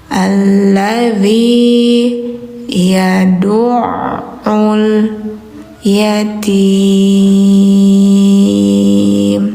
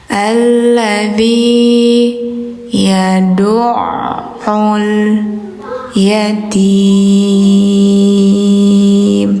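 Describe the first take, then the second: The two takes are said the same way.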